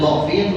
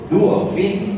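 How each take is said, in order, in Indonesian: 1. Vokal pertama bunyi o terbuka. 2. Vokal pertama bunyi u membulat. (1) "Asalnya do'fin" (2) "berubah jadi du'fin"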